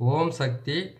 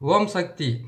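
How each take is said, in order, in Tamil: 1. இது மெதுவாகவும் பொறுமையாகவும் சொல்லப்படுகிறது. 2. இது ஓரளவு வேகமான வேகத்தில் சொல்லப்படுகிறது. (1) "இன்னொரு முறை உங்களுக்கு நான் பொறுமையாக சொல்கிறேன்" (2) "நான் கொஞ்சம் வேகமாக சொல்லிட்டு நினைக்கிறேன்"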